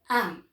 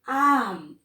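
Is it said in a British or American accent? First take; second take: British; American. First: It is said short, British style. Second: It is dragged out, American style.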